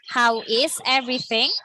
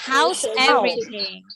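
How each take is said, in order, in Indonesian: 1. Setiap kata diucapkan penuh dan terpisah. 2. 'How is' digabung menjadi satu suku kata. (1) "dia jelas cara ngomongnya" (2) "Kalau digabung, langsung ngomongnya house"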